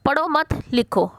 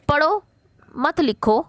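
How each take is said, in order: First: पढ़ो मत together, pause, then लिखो; pause after मत. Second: पढ़ो alone, pause, then मत लिखो together; pause after पढ़ो. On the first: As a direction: break after मत, leaving लिखो on its own. (पढ़ो मत के बाद विराम, फिर लिखो) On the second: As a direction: break right after पढ़ो, keep मत with लिखो. (पढ़ो के बाद विराम, फिर मत लिखो) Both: Shown as a demonstration. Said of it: "छोटे से विराम चिन्ह".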